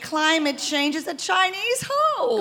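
It is said like a condescending mother.

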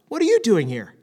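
It sounds curious and pleasantly surprised.

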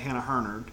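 The name is said in an American accent.

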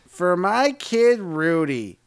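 It sounds confident and high status.

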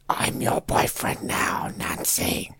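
It is said in Freddy's creepy put-on voice.

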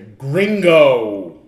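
It is said with an American English accent. "they will say gringo"

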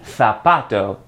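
The z is said like a th. "in Spain"

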